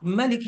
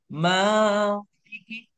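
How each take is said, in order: First: The first vowel is short and quick. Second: The first vowel is drawn out long. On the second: "dibaca panjang"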